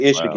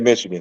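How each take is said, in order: First: The word starts without its M sound. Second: The word starts with a clear M sound. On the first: The speaker refuses to fully name a hated rival. The speaker calls it right. "I don't even say the M" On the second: The rival is named in full. The speaker calls it wrong. "don't say"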